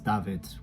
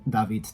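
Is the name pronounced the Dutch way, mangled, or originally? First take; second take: Dutch; original. First: The name is said with Dutch pronunciation. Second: The name is said with its original pronunciation. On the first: "which is the Dutch pronunciation of the name David" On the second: "when people try pronouncing my name as David"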